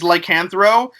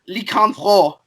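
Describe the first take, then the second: First: The name is said with a plain accent. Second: The name is said with a Quebec accent. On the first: "the proper way to say it is" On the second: "only Quebecers say this because of their accent"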